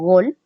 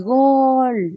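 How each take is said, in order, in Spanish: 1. La palabra se dice corta y sencilla. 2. La palabra se alarga y es intensa.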